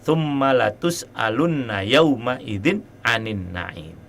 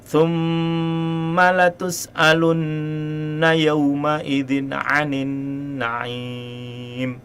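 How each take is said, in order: First: The doubled n is said without a nasal hum. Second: The doubled n is held with a nasal hum. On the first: The speaker calls it wrong. "tidak pakai gunah" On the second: The speaker calls it right. "ini kan ada gunanya"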